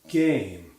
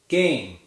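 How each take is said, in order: First: The vowel is drawn out very long. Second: The vowel is a two-part glide of medium length. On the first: The speaker calls it wrong. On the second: The speaker calls it right.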